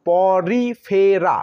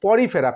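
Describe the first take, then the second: First: পরিফেরা drawn out slowly in four separate syllables. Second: Said in the usual way. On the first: Shown as a demonstration. Teacher spelling out a phylum name for students, পরিফেরা syllable by syllable. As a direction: break পরিফেরা into slow po-ri-fe-ra. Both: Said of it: "ইতে তো একার হয়".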